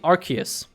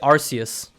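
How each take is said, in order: First: The c is pronounced like a k. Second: The c is pronounced like an s. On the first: The speaker calls it right. "Doesn't it come from Arc? Because like the Arc of a church, that should be Arceus" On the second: The speaker calls it wrong.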